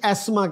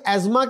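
First: The middle consonant is an s sound. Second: The middle consonant is a z sound. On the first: This is the British way of saying it. "British एस्मा कहते हैं" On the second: This is the American way of saying it. "American एजमा कहते हैं"

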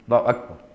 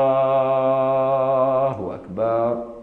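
First: It is said very short and clipped. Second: It is said with vowels stretched very long.

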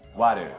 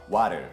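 First: The middle consonant sounds like a D. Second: The middle consonant sounds like a D.

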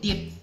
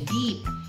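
First: The vowel is a short i sound. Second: The vowel is a long ee sound. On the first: It means to dip something in sauce. The speaker calls it wrong. "hindi yan deep" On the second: It means far down, not shallow. The speaker calls it right. "Ano yung long E sound yan eh?"

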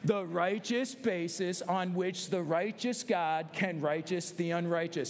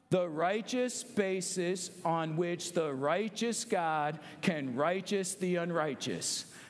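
First: It is said a little faster. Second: It is said slowly.

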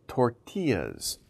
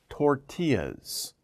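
The two takes are said the same way.

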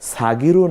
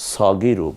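First: The first vowel is an open 'a' sound. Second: The first vowel is a rounded 'o'-like sound. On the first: The speaker calls it wrong. "সাগিরু না পড়ে" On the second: The speaker calls it right. "আমরা সগিরু পড়ব"

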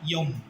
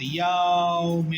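First: The vowel glide is said very quickly. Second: The vowel glide is drawn out slowly. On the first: The speaker calls it right. "এটার বলতে হবে ইয়ম, খুব দ্রুত" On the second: The speaker calls it wrong. "ইয়াউম এরকম বলা যাবে না"

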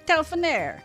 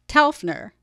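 First: The name is said in an Italian style. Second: The name is said in an American style. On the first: This may be how Italians say it. "maybe the Italians pronounced it Telfner" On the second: This is how the Texas town says it. "The Texas town that's named for him is pronounced Telfner"

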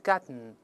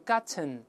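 First: Said quickly with the t released through the nose. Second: Said slowly with a fully released t. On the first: "读快是鼻腔爆gotten" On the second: "读慢了是gotten"

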